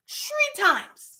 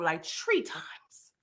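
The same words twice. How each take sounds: First: High-pitched, drawn-out emphasis; emphatic repeat. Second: Slow, low and hushed; low aside. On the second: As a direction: drop it down, nearly whispered. First take, said low. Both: Real, not acted.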